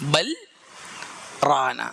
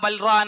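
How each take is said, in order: First: A brief silent stop separates the two words. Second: The two words run together without any stop. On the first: The speaker calls it right. "ഇങ്ങനെ ഓതേണ്ടത്" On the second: The speaker calls it wrong. "അങ്ങനെ ഓതാൻ പാടില്ല"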